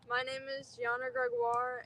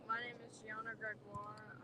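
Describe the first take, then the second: First: It is said loudly and projected. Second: It is said quietly.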